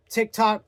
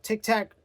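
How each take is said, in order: First: TikTok, second syllable with an open "ah" as in "tock". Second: TikTok, second syllable rhyming with "back"; TikTok as "tick-tack". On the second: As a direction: say TikTok like "Tic Tac". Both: Shown as a demonstration. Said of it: "Is it TikTok or TikTok".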